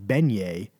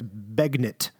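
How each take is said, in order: First: The word is pronounced the French way. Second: The word is pronounced in an Americanized way. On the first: "I'm going to call it beignet" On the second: "when you pronounce it in America, it's begnit"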